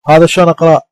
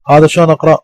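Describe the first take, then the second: No difference in how they are said.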